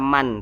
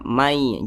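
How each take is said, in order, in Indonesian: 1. Bunyi "n" diucapkan dengan jelas di akhir. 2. Bunyi "n" menyatu dengan "y" yang mengikutinya. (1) "jangan dibaca man" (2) "Jadi dibaca mai"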